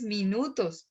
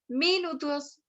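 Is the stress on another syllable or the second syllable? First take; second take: second syllable; another syllable. First: The stress falls on the second syllable. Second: The stress falls on a syllable other than the second. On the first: The speaker calls it right. "Dices minutos, es suave la cosa" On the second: The speaker calls it wrong. "no dices minutos"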